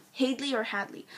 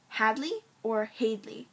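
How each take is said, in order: First: "Hadley" first with a long a like "hay", then "Hadley" with a short a like "had"; unsure pronunciation. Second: "Hadley" first with a short a like "had", then "Hadley" with a long a like "hay"; unsure pronunciation. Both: Shown as a demonstration. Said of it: "I have no idea which one it is".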